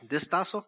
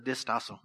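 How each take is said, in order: First: The word is said with a Spanish pronunciation. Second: The word is said without a Spanish pronunciation. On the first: The speaker calls it wrong. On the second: The speaker calls it right.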